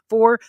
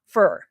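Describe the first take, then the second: First: The vowel is a full 'or' sound. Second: The vowel is a reduced 'er' sound. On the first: The speaker calls it right. "delivered as for" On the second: The speaker calls it wrong. "not fur"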